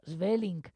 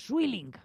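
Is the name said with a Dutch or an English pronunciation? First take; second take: Dutch; English. First: The name is said with a Dutch pronunciation. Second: The name is said with an English pronunciation. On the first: The speaker calls it right. "No, Sweelinck, porque el holandés es muy suyo" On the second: The speaker calls it wrong. "no se dice Sweelinck, como en algunos países de habla inglesa dicen"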